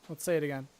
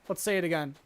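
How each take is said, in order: No difference in how they are said.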